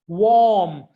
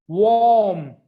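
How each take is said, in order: The two takes are said the same way.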